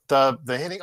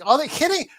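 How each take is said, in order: First: Said in the usual way. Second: The hitting jumps high, exasperated groan of disbelief. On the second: Real, not acted. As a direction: throw up your hands at the hitting.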